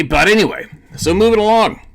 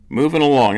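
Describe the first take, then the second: First: Much higher and louder "moving along"; loud topic change. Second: Said in the usual way. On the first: Real, not acted. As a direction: push on loudly to the next topic.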